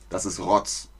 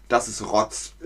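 No difference in how they are said.

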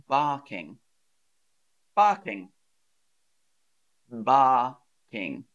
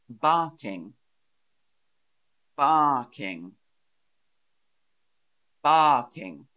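The two takes are said the same way.

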